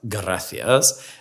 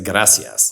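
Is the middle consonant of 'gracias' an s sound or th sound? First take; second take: th sound; s sound. First: The middle consonant is a lisped th sound. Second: The middle consonant is a plain s sound. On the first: This is how it is said in Spain. The speaker calls it wrong. "not gracias" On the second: This is how it is said in Latin America. The speaker calls it right. "in Latin America you say gracias"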